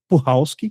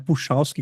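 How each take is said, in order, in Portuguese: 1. A consoante do meio soa como 'h'. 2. A consoante do meio soa como 'ch'. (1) "a pronúncia do sobrenome dela é Puhalski" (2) "não é Puchalski, como eu falei por um bom tempo"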